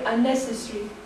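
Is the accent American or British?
British. It is said British style, with a vowel dropped. "they might say unnecessary"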